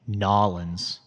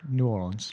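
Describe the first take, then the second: First: The name is squeezed together with a heavy drawl. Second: The name flows smoothly without an exaggerated drawl. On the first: The speaker calls it wrong. "That's way too much. Too much of a southern draw" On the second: The speaker calls it right. "Just let it flow"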